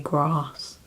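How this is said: It is said in a southern English accent. "how southern I sound when I say grass"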